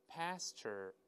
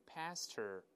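Both takes have the same delivery.

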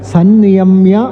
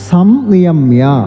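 First: The first syllable ends with an n sound. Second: The first syllable ends with an m sound. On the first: "ഇവിടെ സന്നിയമ്യ എന്ന് ഉച്ചരിക്കും" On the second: "സംനിയമ്യ എന്ന് വേണമെങ്കിലും ഉച്ചരിക്കാം"

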